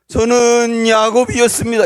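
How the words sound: It is said weeping, in a tearful voice.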